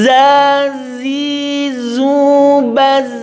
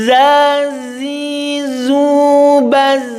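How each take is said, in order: No difference in how they are said.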